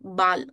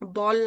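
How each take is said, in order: First: The vowel is an open 'ah' sound. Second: The vowel is a rounded 'aw' sound. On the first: The speaker calls it right. "ए चा उच्चार स्पष्ट आ करायचा" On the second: The speaker calls it wrong. "बॉल नाही म्हणायचं"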